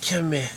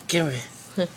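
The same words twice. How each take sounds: First: Laughing. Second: Said in the usual way. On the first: Acted. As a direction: come here through a laugh. Teasing the sick kid.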